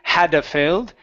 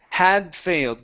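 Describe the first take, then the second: First: An extra vowel follows the D before 'failed'. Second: The D links straight into the F sound. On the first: The speaker calls it wrong. "instead of saying hadda failed" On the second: The speaker calls it right. "it's had failed. Go directly to the F sound"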